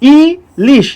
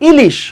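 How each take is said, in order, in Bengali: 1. শব্দটি ধীরে ধীরে, অক্ষর অক্ষর করে বলা হচ্ছে। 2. শব্দটি স্বাভাবিক গতিতে বলা হচ্ছে।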